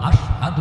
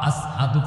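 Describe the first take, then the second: First: The word is said with a sh sound. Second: The word is said with an s sound. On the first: "বলতে পারতেন না" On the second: "কইতেন"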